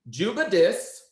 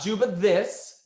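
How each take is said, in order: First: The second word begins with a d sound. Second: The second word begins with a th sound. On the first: The speaker calls it right. "We're going to replace that with a D" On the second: The speaker calls it wrong. "not Juba this"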